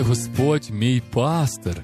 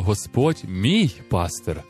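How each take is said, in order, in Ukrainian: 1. Наголос падає на слово пастир. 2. Наголос падає на слово мій. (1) "розуміючи, що Він саме є пастир" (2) "Таким чином ми робимо Бога Господом своїм особистим Богом"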